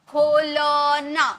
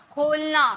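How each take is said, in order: First: खोलना said very slowly, syllable by syllable. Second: Said in the usual way. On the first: Shown as a demonstration. Teacher breaking down खोलना slowly for students. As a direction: stretch खोलना out slowly so each part is heard. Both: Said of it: "इसमें अ का sound नहीं आ रहा".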